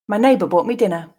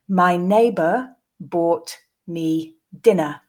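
First: The sentence is said at a natural pace. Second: The sentence is said slowly. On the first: "and then twice more at a more natural pace" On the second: "the first time slowly"

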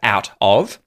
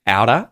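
First: The T is a clear stop and 'of' keeps its full V sound. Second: The T is a soft flap and 'of' shrinks to a weak vowel. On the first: "instead of out of" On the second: "a fish outer, outer, outer"

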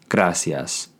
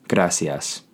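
No difference in how they are said.

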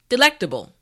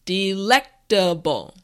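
First: The word is said at normal speed. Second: The word is said slowly and carefully.

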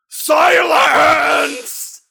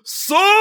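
First: It is said with pitch swooping wildly up and down. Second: It is said in a steady, powerful, commanding voice.

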